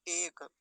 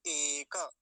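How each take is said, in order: First: एक closed on k; एक with no vowel after क; Hindi pronunciation. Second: एक as "e-ka"; two-syllable एक, long e then ka; Sanskrit pronunciation. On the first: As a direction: say एक as one syllable, "ek". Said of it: "Hindi में क्या बोलते हैं?". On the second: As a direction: open एक out with a vowel after क. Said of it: "और संस्कृत में क्या बोलेंगे?". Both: Shown as a demonstration.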